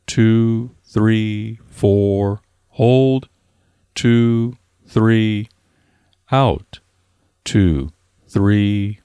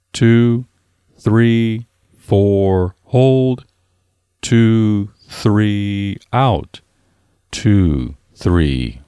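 The two takes are said the same way.

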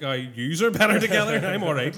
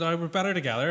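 First: A little louder, teasing twist on his slogan; mocking retort. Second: Lightly voiced stranger quoting a slogan; imitating the recruiter. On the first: Mate mocks the bar recruiter with a louder teasing retort. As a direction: throw his words back at him. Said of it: "I was like". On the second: Mate retells a bar recruiter's pitch, lightly mimicked. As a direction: retell the recruiter's line, barely acted. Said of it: "I just went".

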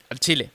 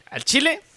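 First: Said in the usual way. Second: "Al chile" jumps high and rises at the end; high rising al chile. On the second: Shown as a demonstration. Confessing to Daniel, "Al chile" pitched high and rising.

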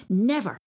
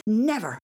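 First: NEVER said louder, defiant; a firm, louder NEVER. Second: The second NEVER louder, stamping; louder NEVER, stamping foot; stamping defiance. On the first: Repeated defiant refusal. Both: Acted.

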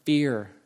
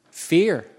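First: Said in the usual way. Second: Fear punched louder, falling hard; stress on Fear. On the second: Shown as a demonstration. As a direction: hit the word Fear with weight. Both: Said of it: "literal fear".

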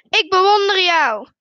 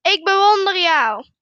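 First: Loud, raised admiring shout; calling out. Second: Loud answering shout; echoed call. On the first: Father shows his son, loud high call. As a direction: call it far across the mountains. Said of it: "en roept". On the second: Mountain voice answers the father, loud echoed call. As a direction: call it back like an echo. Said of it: "De stem antwoordt". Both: A narrator's reading.

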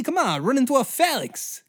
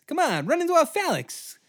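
First: High villain voice, even taunting; first taunt, measured and sly; old-timey villain taunt. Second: Even higher villain voice on repeat; old-timey villain taunt, pushed. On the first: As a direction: Alexander coaxing the charge. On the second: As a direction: push the taunt harder the second time. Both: Retold or imitated. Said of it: "I love that voice".

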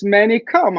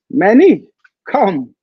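First: A firmer, higher motherly call; mild motherly command; mama voice. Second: Calling out. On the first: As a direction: call him like a Greek mama. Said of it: "with a mama voice". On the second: Lunch lady calling him over. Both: Retold or imitated.

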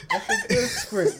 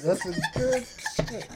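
First: High, slow, laughing delight; high laughing praise. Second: Slow laughing repeat. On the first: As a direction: gush over it while laughing. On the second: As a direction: say it again through a chuckle. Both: Real, not acted.

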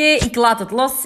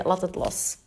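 First: Slow, deliberate and drawn out; deciding out loud. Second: A soft murmured letting go to herself; half-whispered, resigned and low; inner thought, quiet. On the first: Telling her listeners she drops it, said slowly. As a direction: announce letting go with a rising lilt. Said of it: "Dus, oké". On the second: Telling herself to drop it, softly. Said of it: "Ik denk, oké". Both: Retold or imitated.

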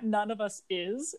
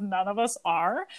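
First: "None of us is", slow and soft, ending on "is" with a rise; proper grammar version. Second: Said in the usual way. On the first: Shown as a demonstration. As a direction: draw out "None of us is" as the correct form. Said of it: "instead of". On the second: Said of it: "no one talks like that".

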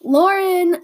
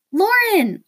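First: Loud call up high; calling out sharply for Lauren; mom's scream. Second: Put-on high excited girly call; friend's high girly scream. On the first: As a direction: shout her name across the house. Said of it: "Mom screamed". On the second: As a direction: squeal her name from across the room. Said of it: "whose girly scream that was". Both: A narrator's reading.

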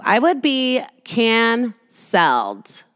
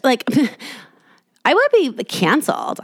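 First: "I would be canceled" stretched out very slowly, mock doom; drawn-out mock dread. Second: High, laughing mock dread; laughing mock panic. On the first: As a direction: drag out "canceled" like a doomed verdict. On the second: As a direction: giggle through the fake panic. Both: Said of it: "you think you're so fucking cool".

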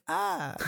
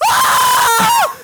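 First: Very soft, high-pitched little shriek; toned-down, half-hearted scream; tiny mock scream. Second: Long, piercing high-pitched shriek; full-volume imitation of a panicked scream; hammed-up scream of terror; very loud mock scream. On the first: Toned-down replay after loudness complaint. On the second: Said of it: "That was so loud".

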